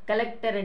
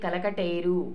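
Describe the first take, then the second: First: The k and t sounds are joined together. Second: An extra vowel separates the k and t. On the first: This is the standard form. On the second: This is the popular adapted form.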